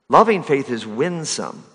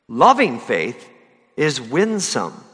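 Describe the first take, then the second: First: Said in the usual way. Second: Slow, weighty loving faith is winsome, loving stretched out; preacher lingers on each word for the congregation, slow and weighty; slow emphatic. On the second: Shown as a demonstration. Preacher savours the phrase slowly to the church, loving held long.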